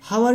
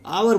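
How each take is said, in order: First: The word begins with an audible h sound. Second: The word begins with a vowel, no h sound. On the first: The speaker calls it wrong. "हावर नहीं बोलेंगे इसको" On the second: The speaker calls it right. "आवर बोलेंगे"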